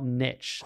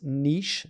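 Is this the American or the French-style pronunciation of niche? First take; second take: American; French-style. First: The word is said the American way. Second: The word is said the French-style way. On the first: The speaker calls it wrong. "not niche" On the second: The speaker calls it right. "it's pronounced niche"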